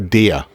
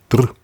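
First: The word has a clear vowel after d. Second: The word has no vowel between d and r. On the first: "dann sagt er der. Nur, das kann der Schweizer gar nicht aussprechen" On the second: "Der sagt dann dr"

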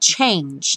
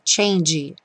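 First: It ends on the consonant with no vowel. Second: An extra vowel sound is added at the end. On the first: The speaker calls it right. "Cuidado com o change" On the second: The speaker calls it wrong. "nada de botar o E"

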